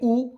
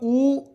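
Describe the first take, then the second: First: The vowel is held only briefly. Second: The vowel is drawn out longer. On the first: "कम समय" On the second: "हमें अधिक समय लग रहा है"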